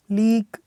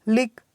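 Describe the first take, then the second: First: लीक with a long, held ee; long vowel. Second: लिक with a short i; short vowel. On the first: Teacher drilling word pairs for students, long vowel. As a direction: draw out the ee in लीक. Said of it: "इसका sound long है". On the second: Teacher drilling word pairs for students, short vowel. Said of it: "short sound है". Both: Shown as a demonstration.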